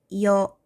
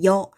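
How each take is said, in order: First: Two vowels are said separately and drawn out. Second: The vowels merge into one short gliding syllable. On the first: The speaker calls it wrong. "이어 이렇게 길게 발음하지 않죠" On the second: The speaker calls it right. "그냥 여 한단 말이야"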